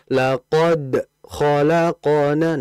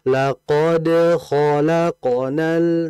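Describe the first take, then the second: First: The voice breaks off after laqad before continuing. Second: The bounce on laqad flows straight into the next word. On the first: The speaker calls it wrong. "itu kayak berhenti itu. Putus suaranya" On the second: The speaker calls it right. "Harusnya dilunakkan, diringankan... jangan putus"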